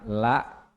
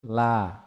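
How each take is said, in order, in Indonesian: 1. Vokalnya terpotong dengan hentian glotal. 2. Vokalnya ditahan sedikit panjang. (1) "la itu la ada hamzah" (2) "La panjang sedikit ya"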